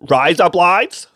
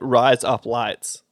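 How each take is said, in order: First: A broad, exaggerated Australian accent, like razor blades. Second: A natural, unexaggerated Australian accent. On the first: This is how outsiders imagine Australians talk. "that's how they think we talk" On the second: This is how Australians actually say it. "But when I'm saying rise up lights"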